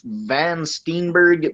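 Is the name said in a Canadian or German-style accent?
Canadian. The name is said in a Canadian English accent. "I just pronounced that about as Canadian as I could"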